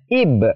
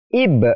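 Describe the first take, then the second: First: The final b is released with a bounce. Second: The same.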